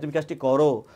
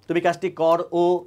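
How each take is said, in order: First: The final o is half-said and blended into the word. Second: The final o is said fully, as a separate sound. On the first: The speaker calls it right. "ওটা রর সাথে যুক্ত হয়ে একটা একটা একটা মার্স হয়ে অল্প উচ্চারণ করছি" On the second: The speaker calls it wrong. "এটা তো বলি না"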